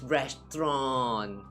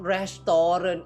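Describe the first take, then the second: First: The word has a British-style pronunciation. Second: The word has the speaker's older, non-British pronunciation. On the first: The speaker calls it right. "it's restaurant" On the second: The speaker calls it wrong. "it's not restaurant"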